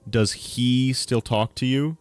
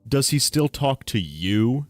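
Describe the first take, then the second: First: The stress falls on the word he. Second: The stress falls on the word still. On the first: The question is about who is still talking to you. "it's putting emphasis on on he" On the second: The question is about whether the talking has gone on a long time. "here's another interesting one"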